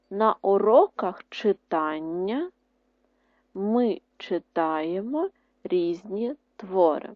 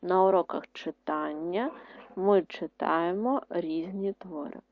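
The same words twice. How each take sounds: First: Each word spaced out slowly; slow dictation. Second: Repeated slowly and steadily; slow dictation, a bit quieter. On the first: (повільний диктант) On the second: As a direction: say it again for writing. (повторний диктант) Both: Shown as a demonstration. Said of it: "Ще раз".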